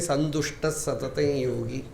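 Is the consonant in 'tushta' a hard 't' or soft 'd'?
soft d. The word is said with a 'd' sound. The speaker calls it wrong. "they say"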